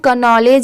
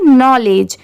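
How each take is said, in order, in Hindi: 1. शब्द की शुरुआत में स्पष्ट के ध्वनि है। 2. शब्द की शुरुआत एन ध्वनि से होती है। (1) "इसे हम कनॉलेज या केनॉलेज भी पढ़ सकते हैं, बट नहीं" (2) "यहाँ पर के लेटर साइलेंट है"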